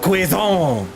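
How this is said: It is said with a French accent. "the French are like"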